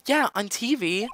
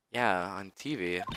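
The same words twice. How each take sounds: First: Put-on Yeah, on T V in a much higher girl voice; Maya voice. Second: Said in the usual way. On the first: Player voices Maya's line, much higher. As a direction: say it high like Maya. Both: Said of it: "repeat in own voice".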